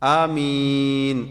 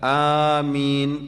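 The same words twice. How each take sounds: First: The first vowel is short, the second long. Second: The first vowel is held long. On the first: "അലിഫ് നീട്ടം കുറച്ച് മീമിന്റെ മദ് കൂട്ടുക" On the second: "അലിഫ് നീട്ടുക"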